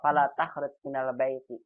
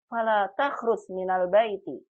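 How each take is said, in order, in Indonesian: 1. Diucapkan dengan lembut dan halus, tidak melarang. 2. Diucapkan dengan nada tinggi dan tegas, melarang. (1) "ini kayak nggak larang nih ya. ... lembut banget kayaknya" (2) "Karena intonasi larangan itu dia tinggi Bu"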